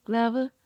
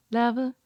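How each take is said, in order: Both takes have the same delivery.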